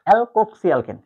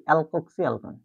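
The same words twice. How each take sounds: First: অ্যালকোক্সি অ্যালকেন said clearly and louder; teacher models অ্যালকোক্সি অ্যালকেন; pronunciation demo. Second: Said in the usual way. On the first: Shown as a demonstration. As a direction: spell out অ্যালকোক্সি অ্যালকেন for the class. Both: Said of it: "ইথারের উচ্চারণটা হবে দেখো".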